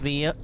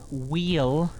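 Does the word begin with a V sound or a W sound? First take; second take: V sound; W sound. First: The word begins with a V sound. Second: The word begins with a W sound. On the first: The speaker calls it wrong. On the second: The speaker calls it right.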